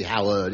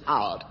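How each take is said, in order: First: Both syllables given in Howard; Howard pronounced in full. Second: Howard cut to one syllable; Howard squashed to 'Ard. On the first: Assistant correcting his own name, Howard said in full. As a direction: say Howard with two clear syllables. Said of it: "It's always Howard". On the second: Assistant insisting on his name, Howard squashed to 'Ard. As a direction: drop the H and middle from Howard. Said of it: "Never say Howard". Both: Acted.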